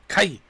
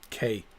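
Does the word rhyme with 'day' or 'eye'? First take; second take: eye; day. First: The vowel sounds like the word eye. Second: The vowel sounds like the letter K. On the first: This sounds more Japanese. The speaker calls it right. "Kai sounds more Japanese" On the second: This is the official way it is said. The speaker calls it wrong. "That's what they call it"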